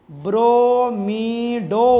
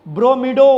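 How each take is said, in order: First: ब्रोमिडो very slowly, every syllable stretched; slow pronunciation. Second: ब्रोमिडो quick and loud as one word; pronunciation demo. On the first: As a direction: draw out ब्रोमिडो as bro-mee-doh. (ब्रोमिडो का बहुत धीमा, खींचा हुआ उच्चारण) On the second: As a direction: announce ब्रोमिडो firmly, ending 'doh'. (ब्रोमिडो का ज़ोरदार, सीधा उच्चारण) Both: Shown as a demonstration. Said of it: "ये क्या बन जाएगा?".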